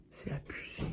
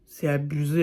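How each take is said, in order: First: Very soft, voiceless whisper; exasperated whisper. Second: Said in the usual way. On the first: Real, not acted. Vlogger despairing to viewers over a cringe series, exasperated whisper. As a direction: whisper it under your breath.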